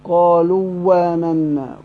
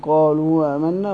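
First: The glottal stop becomes w, merged into double w. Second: The glottal stop is softened, halfway to a vowel. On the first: "وبالإدغام" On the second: "تسهيل بين بين"

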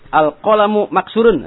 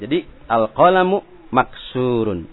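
First: The vowel in 'maksurun' is kept short. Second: The vowel in 'maksurun' is drawn out long. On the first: The speaker calls it wrong. "salah juga" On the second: The speaker calls it right. "kalau ada yang dibaca panjang ya harus baca panjang seperti maksurun"

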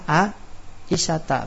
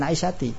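First: The name ends with an a vowel. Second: The name ends with an i vowel. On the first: The speaker calls it right. "ketika nama perempuan an Aisyata" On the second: The speaker calls it wrong. "bukan Aisyati"

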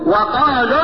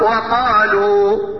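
First: The final vowel is cut short into the next word. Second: The final vowel is held for two counts. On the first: The word is joined to the following word. "يحذف حرف المد" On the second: The reciter pauses on this word. "هتقف"

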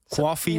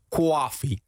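First: Coffee is said in a plain accent. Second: Coffee is said in a Brooklyn accent.

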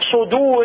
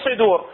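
First: The vowel after the first consonant is full. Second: The vowel after the first consonant is weak. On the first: The speaker calls it right. "حرف الصاد الضمة مالتها ركز عليها" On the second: The speaker calls it wrong. "مو صدور"

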